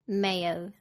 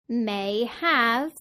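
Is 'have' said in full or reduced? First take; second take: reduced; full. First: Have is reduced and joined to may. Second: Have is said in full.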